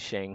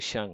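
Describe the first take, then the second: First: The vowel is not an 'uh' sound. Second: The vowel is an 'uh' sound. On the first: The speaker calls it wrong. "Everyone pronoun pronounces it as Shang because I have an E" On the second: The speaker calls it right. "it's actually Sheng. Like the the E is pronounced as a U"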